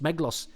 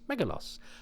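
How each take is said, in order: First: The name is said with two syllables. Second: The name is said with three syllables. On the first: "do they just not pronounce the ... in the middle" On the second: "throw in an extra syllable to make it easier"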